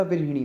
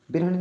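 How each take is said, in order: First: विरहिणी with "hi" in the middle; correct pronunciation. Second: विरहणी with "ha" in the middle; wrong pronunciation. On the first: Teacher corrects it for students, careful pronunciation. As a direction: say विरहिणी as "vir-hi-ni". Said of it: "विरहिणी होती है". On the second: Teacher shows students the error, mispronounced. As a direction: say विरहणी as "vir-ha-ni". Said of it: "विरहणी नहीं होता". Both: Shown as a demonstration.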